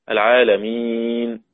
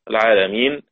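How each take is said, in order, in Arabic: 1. حرف المد يُمَدّ مدّاً متوسطاً. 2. حرف المد يُمَدّ مدّاً قصيراً فقط.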